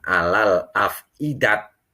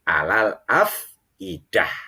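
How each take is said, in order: First: The last word ends with a t sound. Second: The last word ends with an h sound. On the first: The speaker calls it wrong. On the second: The speaker calls it right. "tetapi alal afidah"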